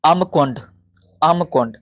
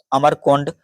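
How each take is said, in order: First: अमकोंड without the र; careful model of अमकोंड, म straight into कोंड; corrected pronunciation. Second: अमरकोंड with an extra र; running mention of अमरकोंड, wrongly sounded; mispronounced name. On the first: Shown as a demonstration. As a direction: teach अमकोंड as an isolated word, repeated. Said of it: "इसे कहेंगे". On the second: Real, not acted. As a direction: say अमरकोंड, keeping the र before कोंड. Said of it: "sorry".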